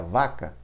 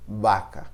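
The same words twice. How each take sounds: First: "vaca" with a Portuguese V, lips on teeth; "vaca" with a buzzing V. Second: "Vaca" with a B sound at the start; Spanish B-like V. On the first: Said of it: "em português seria". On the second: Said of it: "Em espanhol a gente fala vaca". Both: Shown as a demonstration.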